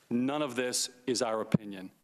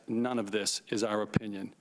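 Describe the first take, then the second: First: Said in the usual way. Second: "none" hit firmly, the phrase lower and deliberate; emphatic repeat. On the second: Shown as a demonstration. Witness repeats it with weight to the committee. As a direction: land hard on "none", as if settling the matter. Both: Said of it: "I emphasize".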